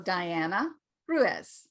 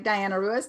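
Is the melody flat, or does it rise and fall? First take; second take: rise and fall; flat. First: The pitch goes up and then comes down. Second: The pitch stays flat throughout. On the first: The speaker calls it right. "you're going to go up and come down" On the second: The speaker calls it wrong. "that's flat"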